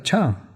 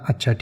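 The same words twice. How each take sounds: First: The word is said in a surprised tone. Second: The word is said in a plain, neutral tone. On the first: The listener is astonished by the news. "उसमें थोड़ा आश्चर्य आप दिखा रहे हैं।" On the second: The listener accepts what was said. "यहाँ पर अच्छा का मतलब है ठीक है, ओके।"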